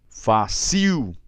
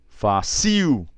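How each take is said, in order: First: The stress is on the last syllable. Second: The stress is on the last syllable.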